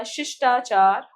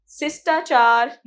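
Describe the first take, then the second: First: शिष्टाचार with sh, 'shishtachar'; correct pronunciation. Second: शिष्टाचार with s for sh, 'sistachar'; mispronounced word. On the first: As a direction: clear sh sounds in शिष्टाचार. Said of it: "होता है". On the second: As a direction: hiss plain s sounds in शिष्टाचार. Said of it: "नहीं होता". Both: Shown as a demonstration.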